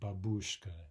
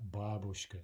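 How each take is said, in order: First: The word carries the stress English speakers use. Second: The word carries its native Russian stress. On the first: The speaker calls it wrong. "It's not babushka. ... a fairly common mistake" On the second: The speaker calls it right. "note that the stress in the Russian is babushka"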